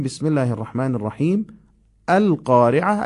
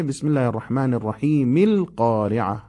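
First: Pause, then lift القارعه; recitation with a break. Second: الرحیم flowing into ilqareʕa with no a at the start; joined recitation. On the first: Teacher showing the basmala set apart from القارعه. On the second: Teacher showing the basmala joined to القارعه. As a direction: join without a break. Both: Shown as a demonstration.

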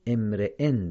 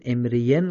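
First: امرئن said emreen, ya silent; correct reading. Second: امرئن said emrejen with an extra ی; wrong reading. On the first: Teacher giving students the right form. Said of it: "امرئن درسته". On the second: Teacher showing students the error. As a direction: demonstrate the mistaken امرئن as emrejen. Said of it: "امرئن غلطه". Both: Shown as a demonstration.

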